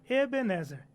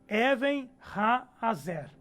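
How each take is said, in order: First: The name is said as one single word. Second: The name is said as two separate words. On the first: This is the Portuguese form of the name. "No português nós temos Ebenezer" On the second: This is the original Hebrew form of the name. "Veja que é duas pronúncias seguidas e não uma só"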